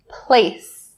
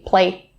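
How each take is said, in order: First: The final s sound is said clearly. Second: The final s sound is left off. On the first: The speaker calls it right. "Just make sure that this sound is really clear. So say place" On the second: The speaker calls it wrong. "Do not drop it or skip it. Don't say play"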